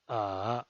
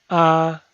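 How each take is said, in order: First: The pitch dips low, then rises. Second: The pitch stays high and level. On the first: "desciende primero ... para ascender luego" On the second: "El primer tono es alto y sostenido"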